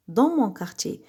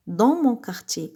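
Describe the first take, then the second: No difference in how they are said.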